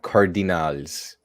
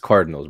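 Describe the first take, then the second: First: The word is pronounced in an odd, exaggerated way. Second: The word is pronounced in the ordinary way. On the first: The speaker calls it wrong. "It's not Cardinals, like you're trying to pronounce it" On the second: The speaker calls it right. "it's Cardinals, bro"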